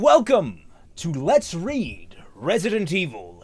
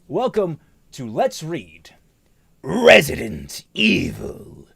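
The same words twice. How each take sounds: First: It is said in the speaker's ordinary voice. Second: It is said in a put-on dramatic voice. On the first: The speaker calls it wrong. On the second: The speaker calls it right.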